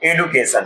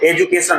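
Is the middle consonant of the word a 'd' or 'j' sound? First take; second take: d; j. First: The middle consonant is a plain d sound. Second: The middle consonant is a j sound. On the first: The speaker calls it right. "एडुकेशन है" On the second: The speaker calls it wrong. "एजुकेशन नहीं है"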